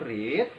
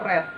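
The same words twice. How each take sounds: First: It is pronounced as the present-tense form. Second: It is pronounced as the past-tense form. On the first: The action happens now. "untuk present itu verb satu read" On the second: The action happened in the past. "bentuk lampau atau verb dua nya itu adalah read"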